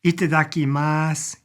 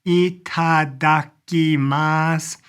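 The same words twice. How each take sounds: First: Said in the usual way. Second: Very slow ITADAKIMASU, each syllable separated. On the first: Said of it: "and it's itadakimasu". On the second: Shown as a demonstration. Teacher introducing a new word, slowly syllable by syllable.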